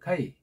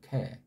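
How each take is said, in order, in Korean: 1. 모음은 'a'에서 'i'로 빠르게 미끄러져요. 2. 모음은 'ae'처럼 한 소리예요. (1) "카이라고 읽어도 뭐라고 말할 필요 없지만" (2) "현대에서는 이걸 갖다 애자에 가깝게 발음들을 하잖아요"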